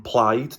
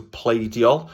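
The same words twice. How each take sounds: First: "plaid" with an "eye" vowel, like "plied"; Welsh I sound. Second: "pleidiol" with an "ay" vowel, PLAY-dyol; I turned to A. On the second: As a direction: open "pleidiol" like the English word "play". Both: Shown as a demonstration. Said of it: "how the I became A".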